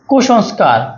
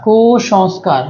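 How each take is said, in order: First: Said in the usual way. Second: "কুসংস্কার" with the first syllable held apart; sounded out. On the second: Shown as a demonstration. Teacher breaking down a spelling for students, "কুসংস্কার" sounded out in parts. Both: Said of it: "অর মতো উচ্চারণ হলে".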